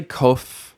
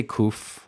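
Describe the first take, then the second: First: "kof" with a long o, as in "loaf"; variant pronunciation. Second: "kuf" with an oo vowel; own pronunciation. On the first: Teacher showing what some people say, "kof" with an oh. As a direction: say "kof" with an oh vowel. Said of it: "Some people say kof". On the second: Teacher showing the way they say it, "kuf" with an oo. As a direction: say "kuf" to rhyme roughly with "roof". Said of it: "I say kuf". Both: Shown as a demonstration.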